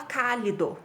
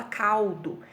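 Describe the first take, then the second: First: "cálido" with an extra vowel, said cá-li-do; the wrong way: "cálido" in three syllables; wrong pronunciation. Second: "caldo" in two syllables, the L sounding like U as "cau-do"; correct pronunciation. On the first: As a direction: show the mistake: "cálido" with the L said as a full syllable. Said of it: "a gente não fala". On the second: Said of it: "A gente fala". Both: Shown as a demonstration.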